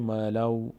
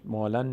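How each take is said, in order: First: The n sound merges into the following w. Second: The n sound is clearly pronounced before w. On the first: The speaker calls it right. "میگیم مالو" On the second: The speaker calls it wrong. "مالن نمیگیم"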